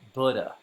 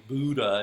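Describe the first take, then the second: First: The first syllable rhymes with wood. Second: The first syllable does not rhyme with wood. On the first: The speaker calls it right. "the first syllable rhymes with wood, so it's really Buddha" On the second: The speaker calls it wrong. "most of us often say Buddha"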